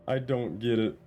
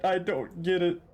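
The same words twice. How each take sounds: First: Said in the usual way. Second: Baffled. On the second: Real, not acted. Repeats confusion, first take high.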